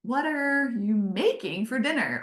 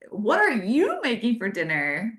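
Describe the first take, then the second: First: "are" stressed and the question falling flat at the end; other reading. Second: Friendly, upbeat question with a lift on "are"; positive voice. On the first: Showing husband the same text read snarkily. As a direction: read "What are you making for dinner?" the snarky way. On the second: Showing husband how a text reads in a positive voice. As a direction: ask "what are you making for dinner?" brightly, rising at the end. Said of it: "what if you read it in a really positive voice?". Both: Shown as a demonstration.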